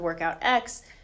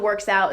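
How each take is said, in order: First: The letter X is spoken at the end. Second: A ks sound follows the first part. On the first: "it's not the workout X" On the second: "it's not the works out"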